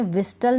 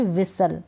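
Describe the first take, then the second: First: "विस्टल" with the T sounded; mispronounced "विस्टल", T not silent; wrong pronunciation. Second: "विसल" with a silent T; correct pronunciation. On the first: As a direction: put a T after S in "विस्टल". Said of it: "विस्टल नहीं पढ़ूंगी". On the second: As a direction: drop the T from "विसल". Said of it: "ठीक है, ऐसे". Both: Shown as a demonstration.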